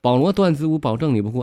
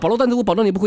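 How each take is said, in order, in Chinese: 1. 这句话说得比较慢。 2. 这句话说得比较快。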